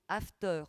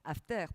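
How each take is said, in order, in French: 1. Il se prononce comme le mot anglais after. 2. Il se termine comme le mot français terre. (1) "pas comme la bringue matinale, comme j'ai mal prononcé à l'instant" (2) "After comme terre, bien sûr"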